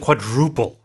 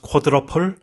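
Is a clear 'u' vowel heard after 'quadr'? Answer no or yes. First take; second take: yes; no. First: A clear 'u' vowel is heard after 'quadr'. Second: No clear 'u' vowel is heard after 'quadr'. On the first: The speaker calls it right. "There's a U in there" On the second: The speaker calls it wrong. "if you've watched figure skating here in Korea, uh, this is pronounced quadruple"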